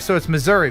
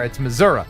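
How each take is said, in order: First: It is said the way non-residents say it. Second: It is said the way residents say it. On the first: The speaker does not live there. "I don't live there, so it's Missouri" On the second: The speaker lives there. "But if you live there, it's Missouri"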